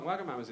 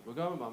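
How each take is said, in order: First: Said in the usual way. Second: Wagamama run smoothly as one word; flowing pronunciation. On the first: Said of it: "Wagamama's is clunky". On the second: Shown as a demonstration. Arguing it sounds nicer, flowing Wagamama. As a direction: let Wagamama flow off the tongue. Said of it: "It flows off the tongue".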